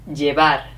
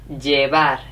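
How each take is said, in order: Both takes have the same delivery.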